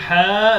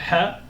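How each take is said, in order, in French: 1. La voyelle est allongée et tenue longuement. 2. La voyelle est brève et n'est pas tenue. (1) "tu es en train de l'allonger" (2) "Dire ha, voilà"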